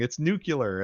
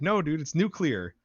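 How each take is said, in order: First: "nuclear" said as NOO-kyuh-ler; nucular pronunciation. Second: "nuclear" said as NOO-klee-er; high-pitched retort, "nuclear" with a clear KLEE; NOO-klee-er pronunciation. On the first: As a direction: swap it to "nucular", pitched up in mock correction. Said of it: "you're saying it wrong". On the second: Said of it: "how I pronounce nuclear". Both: Retold or imitated.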